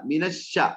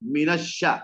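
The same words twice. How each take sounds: First: The sh sound is followed by an a vowel. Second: The sh sound is followed by an a vowel.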